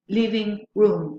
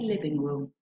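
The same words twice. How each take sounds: First: Both words carry equal main stress. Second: Only one word carries the main stress. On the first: It is two separate words. The speaker calls it wrong. "We don't say" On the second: It is a single compound word. The speaker calls it right. "we say living room. That is to say, it has only one stress"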